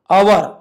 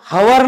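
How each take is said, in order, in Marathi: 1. हा शब्द स्वराने सुरू होतो, h नाही. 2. हा शब्द स्पष्ट h आवाजाने सुरू होतो. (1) "एच सायलेंट आहे" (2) "हवर नाही"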